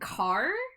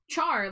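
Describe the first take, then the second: First: It starts with a k sound, like car. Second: It starts with a ch sound, like char. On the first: "making the H silent and and just saying car" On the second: "Char like Charmander"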